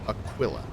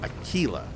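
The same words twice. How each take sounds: First: The middle syllable sounds like quill. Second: The middle syllable does not sound like quill. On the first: The speaker calls it right. "like Q U I L L, like the quill of a porcupine" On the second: The speaker calls it wrong. "So it's not Aquila"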